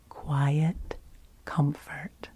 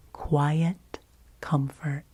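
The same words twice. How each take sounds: The two takes are said the same way.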